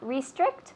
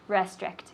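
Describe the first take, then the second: First: The first syllable sounds like 're'. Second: The first syllable sounds like 'ra'. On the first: "You can say re" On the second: "or ra"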